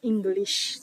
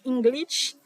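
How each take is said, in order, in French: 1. Le mot se termine par un son 'sh'. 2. Le mot se termine par un son 'tch'. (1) "c'est comme ça li prononcer" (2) "li pas correct"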